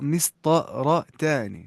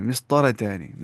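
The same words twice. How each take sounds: First: مسطرتان drawn out very slowly, syllable by syllable; pronunciation demo. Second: Said in the usual way. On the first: Shown as a demonstration. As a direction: break مسطرتان into slow, separate syllables for learners. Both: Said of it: "ایسے بولنا ہے".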